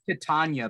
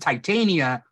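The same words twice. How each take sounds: First: The name does not begin like titanium. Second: The name begins like titanium. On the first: It is the name of the fairy queen. The speaker calls it wrong. "I want to say" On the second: It is the comic book character's name. The speaker calls it right. "like titanium"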